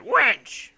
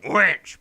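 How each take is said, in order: First: Loud, high pirate bellow; a badly faked pirate shout. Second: Loud pirate call, not quite right; second try at a pirate yell; another pirate attempt. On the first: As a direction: yell it like a hammy pirate. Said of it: "that's a really bad pirate voice". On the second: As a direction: bark for the barmaid. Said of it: "that's not quite a pirate voice either".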